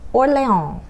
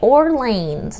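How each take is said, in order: First: It is said with a French accent. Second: It is said with an American English accent. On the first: The speaker calls it right. "You say Orléans" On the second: The speaker calls it wrong. "as Americans you would say"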